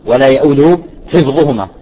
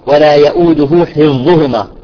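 Both takes have the same delivery.

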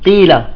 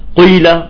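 First: The lips stay spread, giving a clear i vowel. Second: The lips round, giving the vowel a u colour. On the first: The speaker calls it right. "لا، قيل" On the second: The speaker calls it wrong. "بيضم شفايفه وقت القاف، قيل، بطالعة مشوبة بالضمة"

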